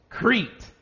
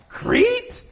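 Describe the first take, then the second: First: It is said calmly, as a plain answer. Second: It is said with dismay, as a shocked question.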